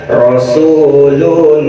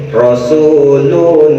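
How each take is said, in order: Both takes have the same delivery.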